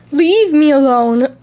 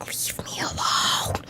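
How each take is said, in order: First: Said in the usual way. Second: Unvoiced slow whisper of Leave me alone; hushed plea "Leave me alone". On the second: Whispered take.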